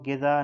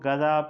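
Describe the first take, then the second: First: The first syllable has an 'i' vowel. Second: The first syllable has an 'a' vowel. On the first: The speaker calls it wrong. "गिज़ा फ़ारसी में दुरुस्त तलफ़्फ़ुज़ नहीं है" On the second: The speaker calls it right. "इसको गज़ा पढ़ना है"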